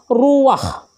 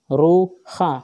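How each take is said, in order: First: The 'a' vowel comes before the 'h' sound. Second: The 'a' vowel comes after the 'h' sound. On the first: The speaker calls it right. "Maka dibaca adalah ruwah" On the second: The speaker calls it wrong. "bukan ruha"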